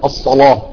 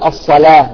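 First: The l sound is heavy and thick. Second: The l sound is light and thin. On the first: "ولكن في ورش يفخمها يقول الصلاة" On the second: "نحن نقول الصلاة نرققها"

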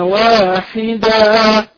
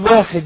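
First: The word ends with a long a vowel. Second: The word ends on the consonant d. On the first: The speaker calls it right. "نستبدل التنوين المنصوب بألف المد" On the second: The speaker calls it wrong. "فلا تقل واحد"

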